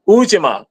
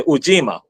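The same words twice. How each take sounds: First: Ujima with the first syllable high and stressed; OO-ji-ma, front-stressed Ujima; own pronunciation. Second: Ujima with the stress on the long JEE; middle-stressed Ujima, long ee; alternative pronunciation. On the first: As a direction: say Ujima leaning on the opening OO. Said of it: "I say Ujima". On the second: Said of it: "Some say Ujima". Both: Shown as a demonstration.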